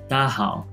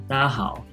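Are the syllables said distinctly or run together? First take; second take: run together; run together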